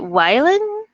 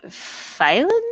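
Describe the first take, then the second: First: The word begins with a W sound. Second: The word begins with an F sound. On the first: "V is pronounced like W" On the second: "V is pronounced like F"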